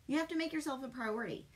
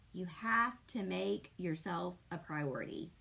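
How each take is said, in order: First: Fast, higher insistent repeat; emphatic tough love. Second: Low, firm and deliberate; tough love. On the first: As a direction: hammer the point home quickly. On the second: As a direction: lay it down calmly like a stern coach. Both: Real, not acted. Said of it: "I'm about to put my tough love hat on".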